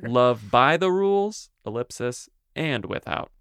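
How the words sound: The line is read with lively, varied intonation.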